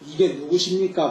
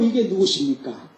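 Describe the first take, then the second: First: The voice sounds plain and flat. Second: The voice sounds soft, friendly and warm. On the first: The speaker calls it wrong. "보다 낫지 않습니까?" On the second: The speaker calls it right. "목소리 부드럽게 반갑게 정겹게 친근감 있게 다정다감하게"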